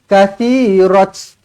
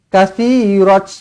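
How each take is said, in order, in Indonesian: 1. Kata ini diakhiri dengan bunyi t. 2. Kata ini diakhiri dengan bunyi t.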